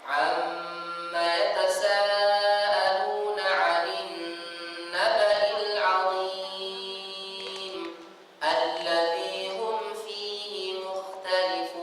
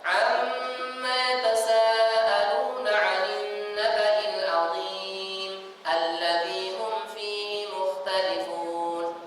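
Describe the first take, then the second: First: It is recited a little faster. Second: It is recited fastest of all.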